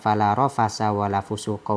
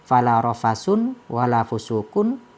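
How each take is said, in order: First: The words end in a plain short 'a'. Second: The words end in 'un' with an n sound. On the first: This is the usual reading with the accusative case. "Biasa kita baca" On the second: This is the variant reading with the nominative case. "dibaca rafa di dalam lafaz fala rafasun wala fusukun"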